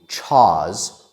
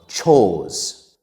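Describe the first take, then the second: First: The vowel is an open ah with no R. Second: The vowel is a rounded oh with no R. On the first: "Some students mispronounce that word by saying chaws" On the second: "or chose"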